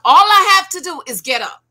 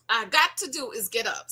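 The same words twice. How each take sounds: First: ALL I have to do is get up, loud and high; emphatic loud. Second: Said in the usual way. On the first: Shown as a demonstration. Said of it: "All I got to do is get up".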